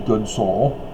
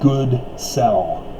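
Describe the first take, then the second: First: The second part sounds like 'soul'. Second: The second part sounds like 'sell'. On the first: The speaker calls it wrong. "It cannot be good soul" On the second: The speaker calls it right. "it has to be good sell"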